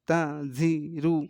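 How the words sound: The syllables are read separately with breaks between. "আগে বাক বাক করে পড়ে নেবেন।"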